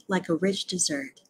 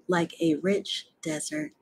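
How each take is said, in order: First: "dessert" stressed on the second syllable; corrected dessert. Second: "desert" stressed on the first syllable; misread dessert. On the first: Reader correcting the slip, "dessert" stressed dih-ZERT. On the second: Reader misreading the sweet course, "desert" stressed DEZ-ert. Misreading, corrected next line. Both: Real, not acted.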